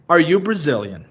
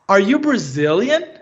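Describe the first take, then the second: First: The voice falls at the end. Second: The voice rises at the end.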